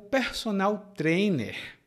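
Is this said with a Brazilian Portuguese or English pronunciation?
Brazilian Portuguese. It is said with a Brazilian Portuguese pronunciation. "Em português, né, a nossa pronúncia é diferente"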